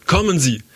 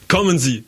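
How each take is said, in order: First: Repeated call pitched higher and pushed harder; louder shout. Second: Shouting. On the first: Guide shouting at the others to come on. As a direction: yell it again more urgently. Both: A narrator's reading. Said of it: "schrie unser Führer".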